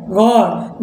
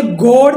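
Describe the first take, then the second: First: गॉड with open "aw", pitched down; short open O. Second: गॉड mispronounced as "goad"; wrong long O. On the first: Teacher correcting the reading, गॉड with open "aw". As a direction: say गॉड as "gawd". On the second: Teacher showing what not to read, गॉड with long "oh". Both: Shown as a demonstration. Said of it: "अब इसे गॉड नहीं पढ़ना है".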